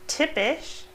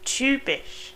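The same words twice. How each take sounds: First: The first vowel is a plain unrounded i. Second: The first vowel is a rounded ü sound. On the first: The speaker calls it wrong. "It's not typisch" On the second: The speaker calls it right. "but typisch"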